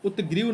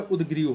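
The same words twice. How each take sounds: First: उत्ग्रीव said with a hard t before ग्री; wrong form shown. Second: उद्ग्रीव said with a voiced d before ग्री; correct form shown. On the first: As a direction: demo the mistaken उत्ग्रीव with a clear t. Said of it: "उत्ग्रीव नहीं होता है". (उत्ग्रीव को त की ध्वनि के साथ गलत रूप में बोलें) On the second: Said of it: "उद्ग्रीव होता है". (उद्ग्रीव को द की ध्वनि के साथ सही रूप में बोलें) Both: Shown as a demonstration.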